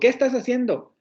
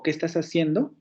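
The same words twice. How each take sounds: First: It is said with an exclamatory intonation. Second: It is said with a questioning intonation. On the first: The speaker is surprised or reproachful about what is being done. "Estoy haciendo como una exclamación en el sentido de, pero, pero, ¿qué haces, no?" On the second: The speaker is asking what the listeners are doing. "Les estoy haciendo una pregunta"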